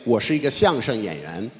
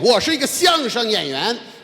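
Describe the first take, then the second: First: It is said in a plain conversational voice. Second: It is said loudly with projected energy. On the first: It is ordinary talk to one person. "if I was just talking to somebody" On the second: It is a stage performance for an audience. "I have to bring some energy to it"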